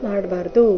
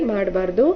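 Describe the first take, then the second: The two takes are said the same way.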